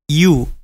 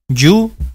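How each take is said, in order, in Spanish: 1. Empieza con un sonido de deslizamiento tipo 'ee'. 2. Empieza sin un sonido de deslizamiento tipo 'ee'. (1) "Se pronuncia empezando por i" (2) "no se pronuncia you, you no"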